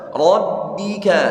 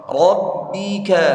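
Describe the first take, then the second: No difference in how they are said.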